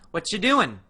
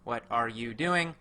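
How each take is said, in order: First: It is said fast and short. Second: It is said slowly and in full.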